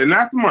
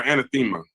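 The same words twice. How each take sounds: First: "Anathema" said a-NATH-ema; stress on second syllable. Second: "Anathema" said anna-THEE-ma; stress on third syllable. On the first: Host checking a name, "Anathema" as a-NATH-ema. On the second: Host trying the other way, "Anathema" as anna-THEE-ma. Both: Shown as a demonstration. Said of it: "is it Anathema or Anathema".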